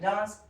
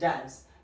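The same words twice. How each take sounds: First: It is said with a British accent. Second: It is said with an American accent.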